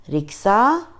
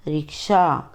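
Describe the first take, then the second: First: रिक्शा with a plain s, "riksa"; wrong pronunciation. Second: रिक्शा with sh, "riksha"; correct pronunciation. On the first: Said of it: "अशुद्ध उच्चारण अलग तरीके से होता है". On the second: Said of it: "शुद्ध उच्चारण अलग तरीके से होता है". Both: Shown as a demonstration.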